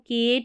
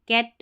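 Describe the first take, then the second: First: The vowel sounds like 'ay', as in 'kate'. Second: The vowel is a short 'a', as in 'cat'. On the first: The speaker calls it wrong. "इसको केट नहीं" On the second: The speaker calls it right. "यानी short sound ए का आएगा"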